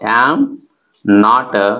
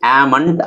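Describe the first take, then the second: First: It is said as two full words. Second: It is said as one contracted word.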